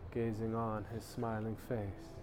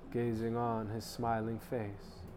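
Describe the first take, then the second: No difference in how they are said.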